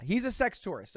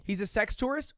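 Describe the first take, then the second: First: Falling statement on "tourist"; "tourist" landed as a firm answer; confirming. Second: Rising question on "tourist"; "tourist" tipped up like a query. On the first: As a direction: confirm it, letting "tourist" drop at the end. Answers own question with yeah. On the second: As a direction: ask it, lifting "tourist" at the end. Asks, then answers himself. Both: Shown as a demonstration.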